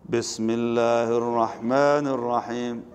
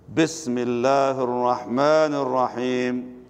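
First: It is recited aloud in a plain way. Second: It is recited aloud with strong emphasis.

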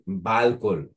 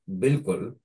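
First: The first vowel sounds like 'a'. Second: The first vowel sounds like 'i'. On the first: The speaker calls it wrong. "it was saying balkul, okay, by mistake" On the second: The speaker calls it right. "in my answer, I said bilkul"

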